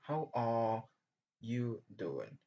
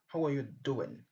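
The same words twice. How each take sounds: First: The word 'are' has a long full vowel. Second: The word 'are' is reduced to a schwa. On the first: "c'est une longue voyelle ici" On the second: "quand on parle vite, on passe vite, on remplace are par choix"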